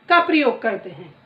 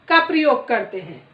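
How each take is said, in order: The two takes are said the same way.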